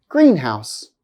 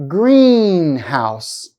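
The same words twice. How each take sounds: First: Said in the usual way. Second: "Greenhouse" with a long, strong "Green"; held first-part stress. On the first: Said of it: "the first time". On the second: Shown as a demonstration. Teacher showing compound noun stress, held demo. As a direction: hold the first part of "Greenhouse" a full second. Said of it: "I'll hold the stress for one second".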